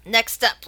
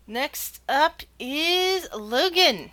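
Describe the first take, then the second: First: Said in the usual way. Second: Very slow, higher suspenseful announcer; drawn-out announcement. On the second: Acted. Game master announcing next contestant, slow drawn-out reveal. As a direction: stretch each word before revealing the name.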